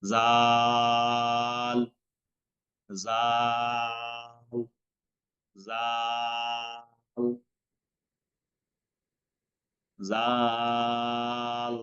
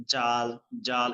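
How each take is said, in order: First: জাল stretched slow and light; long thin dhal. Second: জাল hard and forced; wrong hard dhal. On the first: Teacher drills correct Arabic letter, drawn-out জাল. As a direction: draw out জাল thin, three beats. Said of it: "পাতলা করে পড়তে হবে". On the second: Teacher imitates students' mistake, hard জাল. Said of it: "এভাবে শক্ত করে বলেন". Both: Shown as a demonstration.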